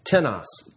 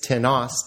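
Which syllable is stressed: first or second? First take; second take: first; second. First: The stress is on the first syllable. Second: The stress is on the second syllable. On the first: It asks a question: whom? "Interrogative, ... the interrogative pronoun always has the accent on the first syllable" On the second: It refers to someone unspecified. "Indefinite, ... has the accent on the second syllable or no accent at all"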